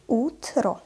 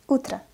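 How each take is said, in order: First: "Утро" slowly with a full final O; slow, articulated reading. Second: "Утро" quickly, final O reduced to A; fast, natural reading. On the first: Teacher models for learners, "Утро" slow with a clear O. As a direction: spell out "Утро" in two clear syllables. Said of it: "what is articulated pronunciation". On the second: Teacher reads as a native, "Утро" fast with O as A. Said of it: "I pronounced the letter O as A". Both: Shown as a demonstration.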